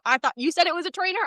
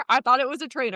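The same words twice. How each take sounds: First: Higher and fast, defensive rising tone; mock husband excuse. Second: Said in the usual way. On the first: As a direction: whine it innocently. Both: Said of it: "He says".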